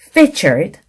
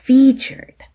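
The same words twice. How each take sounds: First: The vowel is said short. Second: The vowel is drawn out long. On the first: The speaker calls it wrong. "길게 발음해야 될 것을 짧게 발음했다든지" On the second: The speaker calls it right. "장음에"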